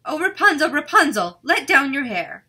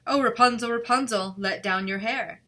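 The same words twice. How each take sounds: First: Loud, high witch call up to the tower. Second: Prince copies the witch's call, not too shrill. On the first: Witch calls up to Rapunzel in the tower, loud and high. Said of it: "listened while she called out". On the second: King's son calls up to the tower, a bit louder. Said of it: "he went to the tower and cried". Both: A narrator's reading.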